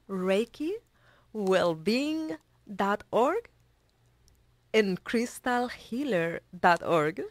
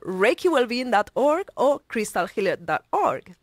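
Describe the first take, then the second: First: It is said slowly and carefully. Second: It is said fast and excitedly.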